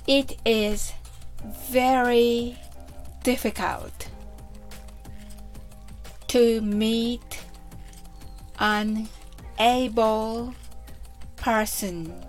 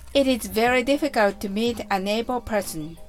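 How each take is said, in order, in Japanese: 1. この文はゆっくり話されています。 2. この文は速く話されています。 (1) "はじめはゆっくりです。" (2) "それでは早く言ってみましょう。"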